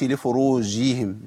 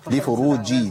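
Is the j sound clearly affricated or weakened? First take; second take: weakened; affricated. First: The j sound is weakened and not fully affricated. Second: The j sound is clearly and fully affricated. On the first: The speaker calls it wrong. "ما قولش لفروجهم" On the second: The speaker calls it right. "لابد من بيان تعطيش الجيم"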